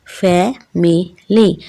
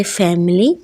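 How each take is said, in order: First: फैमिली slowly split as फै-मि-ली; syllable by syllable. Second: Said in the usual way. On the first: Shown as a demonstration. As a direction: break फैमिली into three separate beats, fai-mi-lee. (फैमिली को syllables में तोड़कर, फै-मि-ली) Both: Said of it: "syllable में break करते हैं".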